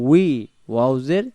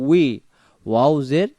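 The two takes are said the same way.

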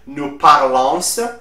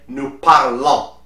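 First: The final S of parlons is pronounced. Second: The final S of parlons is silent. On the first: The speaker calls it wrong. "Here the S at the end will be silent, so you will not say" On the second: The speaker calls it right. "but you will say"

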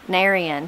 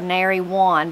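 First: It is shortened into one blended word. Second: It is said as two full separate words.

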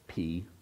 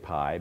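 First: The vowel sounds like 'ee'. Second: The vowel sounds like 'eye'. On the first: This is the real Greek way. "you actually pronounce it p" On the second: This is the usual English way. "we always say pi"

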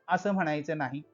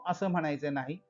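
Both takes have the same delivery.

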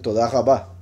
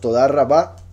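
First: The R is guttural, made in the throat. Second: The R is trilled at the tongue tip.

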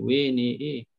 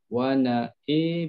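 First: The waw, nun and hamzah vowels lean toward 'e'. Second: Only the hamzah vowel leans toward 'e'. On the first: The speaker calls it wrong. "Jangan pula tambah sampai waw... Kalau tambah dia bunyi lain lagi lah" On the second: The speaker calls it right. "Imam Khallad, dia cuma imalahkan huruf hamzah saja"

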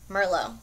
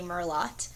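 First: The word ends without a T sound. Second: The word ends with a clear T sound. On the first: The speaker calls it right. "I don't think you pronounce the T" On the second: The speaker calls it wrong. "it'd be dumb to say Merlot"

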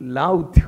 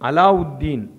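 First: The name is said in a clipped local form. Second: The name is said in its full Arabic form. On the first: The speaker calls it wrong. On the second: The speaker calls it right.

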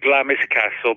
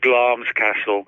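First: The name is pronounced just as it is spelled. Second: The name is pronounced in a shortened, clipped form. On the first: This is the common, everyday pronunciation. "Everybody calls it Glamis Castle" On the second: This is the original pronunciation. "the original pronunciation is Glam's Castle"

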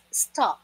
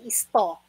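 First: It starts directly with the 's' sound. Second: An extra 'i' vowel comes before 'sto'. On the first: The speaker calls it right. "it's sto" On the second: The speaker calls it wrong. "Pero kung hindi isto"

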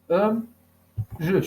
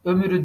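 First: The second-syllable vowel is dropped from the word. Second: The second-syllable vowel is kept in the word. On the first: The speaker calls it right. "ömrü şeklinde" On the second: The speaker calls it wrong. "Ömürü değil"

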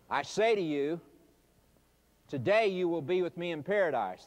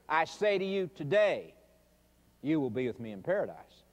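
First: The pause comes right after 'you'. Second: The pause comes right after 'today'.

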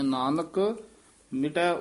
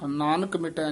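First: There is a pause after the first word. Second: The two words run together without a pause. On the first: The speaker calls it right. "Nanak ਪਾਤੀ ਯਮਕ ਲਾ ਦਨੀ ਹੈ" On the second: The speaker calls it wrong. "Nanak ਮਿਟੈ ਨਹੀਂ ਕਹਿਣਾ"

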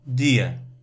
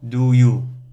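First: The words blur into one short weak syllable. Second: Both words are said fully and clearly. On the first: "but you usually hear people in the street, they say dear" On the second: "You expect to hear, you think that in the street you hear people speak in this way"

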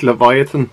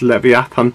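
First: The name is said the usual English way. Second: The name is said the original Hebrew way. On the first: "it's like Leviathan" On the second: "it's the original Hebrew pronunciation, so it's Leviathan"

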